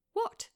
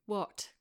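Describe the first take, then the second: First: Much higher, quick What?; sharp question. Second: Said in the usual way. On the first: A narrator's reading. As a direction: snap the word What? up high. Claire responds quickly.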